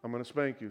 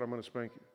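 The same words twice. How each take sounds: First: Said in the usual way. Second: Quiet. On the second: Retold or imitated. Father repeating the warning to his little son, much softer.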